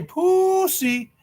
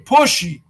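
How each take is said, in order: First: The middle consonant is a plain s sound. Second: The middle consonant is an sh sound. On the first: "you don't say pussy" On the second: "you say pushy"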